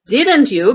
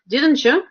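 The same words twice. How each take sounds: First: The t and y sounds stay separate. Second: The t and y sounds blend into one.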